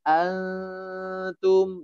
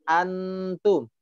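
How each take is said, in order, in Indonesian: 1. N itu bunyi sengau yang samar dan ditahan. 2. N itu n yang jelas dan penuh. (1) "samar-samar... pertengahannya" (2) "jangan dibaca antum"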